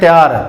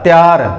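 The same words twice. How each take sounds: First: The first syllable is clipped to tya. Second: The first syllable is clipped to tya.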